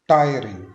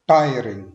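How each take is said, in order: The two takes are said the same way.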